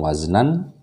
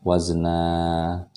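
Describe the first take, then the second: First: The word ends with a short vowel and n. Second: The word ends with a long open vowel. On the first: The speaker calls it wrong. "Bukan waznan" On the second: The speaker calls it right. "tapi wazna"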